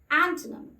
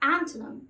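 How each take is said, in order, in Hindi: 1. आखिरी अक्षर 'him' से तुक मिलता है। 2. आखिरी अक्षर 'him' से तुक मिलता है।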